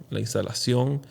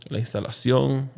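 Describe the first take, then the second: No difference in how they are said.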